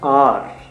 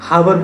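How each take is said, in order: First: The word begins with a vowel, h silent. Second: The word begins with an audible h sound. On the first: The speaker calls it right. "एच O यू आर होता है आर" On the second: The speaker calls it wrong. "बच्चे उसको miss pronounce कर जाते हैं"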